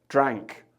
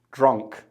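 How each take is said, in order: First: "drank" said as a second hesitant try with a falling tone. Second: Put-on "drunk" said as a tentative first try with a falling tone. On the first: Host unsure of grammar tries "drank" instead. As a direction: swap to "drank", weighing it up. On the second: Host unsure of grammar tries "drunk" tentatively. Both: Shown as a demonstration. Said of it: "drank, drank or drunk? Let me know".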